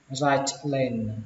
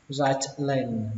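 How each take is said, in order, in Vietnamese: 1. Âm t được phát âm rõ ràng trước 'lane'. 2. Âm t được phát âm rõ ràng trước 'lane'.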